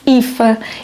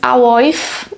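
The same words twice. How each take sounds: First: The name is said like 'Eefa'. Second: The name is read out as it is written. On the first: "mas lê-se Aoife" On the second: "o nome dela escreve-se Aoife"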